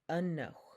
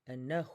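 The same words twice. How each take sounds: First: The stress is on the first syllable. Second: The stress is on the second syllable. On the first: It means stop. "you hear the emphasis on the first E" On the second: It means bring. "the emphasis on is on the second E"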